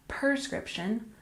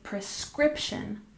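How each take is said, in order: First: The stress is on the first syllable. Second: The stress is on the second syllable. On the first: The speaker calls it wrong. "not prescription" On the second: The speaker calls it right. "We stress the second syllable, and remember, we say prescription"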